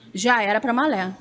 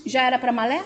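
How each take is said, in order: First: Já era pra malé. stated with the voice falling on malé; settled fall on "malé"; falling answer. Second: Já era pra malé? asked with the voice rising at the end; questioning rise on "malé". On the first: Answers her own question. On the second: Asks herself, rising question. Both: Pretend.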